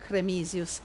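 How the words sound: The name is said with Italian-sounding vowels. "in an Italian and Latin sounding pronunciation"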